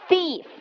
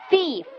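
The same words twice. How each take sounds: Both takes have the same delivery.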